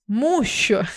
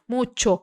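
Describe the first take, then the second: First: The middle consonant is an 'sh' sound. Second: The middle consonant is a 'ch' sound. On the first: The speaker calls it wrong. "Alguém que não sabe desse detalhe fala murcho ... Que é o som do português do C H" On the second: The speaker calls it right. "tch, tch, tch, mucho"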